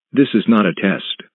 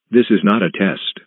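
The two takes are said the same way.

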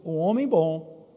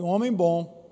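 First: Said in the usual way. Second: "um homem bom" said more forcefully, louder, stress on "homem"; "um homem bom" louder and firmer, as a call to repeat; said stronger. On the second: Shown as a demonstration. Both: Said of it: "Não, diga mais forte".

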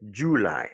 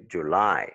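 First: "July" stressed on the first syllable, JU-ly; "July" with the weight up front; wrong stress on JULY. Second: "July" stressed on the last syllable, ju-LY; "July" with a weak first vowel, strong LY; second-syllable stress on JULY. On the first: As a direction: hit the JU of "July" instead of the end. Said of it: "Tu peux pas dire". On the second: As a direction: lean on the LY of "July". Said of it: "c'est sur la deuxième syllabe". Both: Shown as a demonstration.

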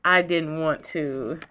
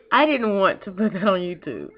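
First: Choking up. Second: Said in the usual way. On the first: Real, not acted. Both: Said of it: "choking up and sniffling".

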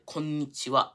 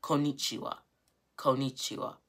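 First: "konnichiwa" with the n held long; careful "konnichiwa", leaning on the n as its own beat; emphasized n. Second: "konnichiwa" with a single short n, as ko-nee-chi-wa; anglicized "konnichiwa" with no emphasis on the n; English speaker's mispronunciation. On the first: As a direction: stretch the n in "konnichiwa". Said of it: "have the emphasis on the n". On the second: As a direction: drop the held n in "konnichiwa". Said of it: "you see how that's wrong". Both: Shown as a demonstration.

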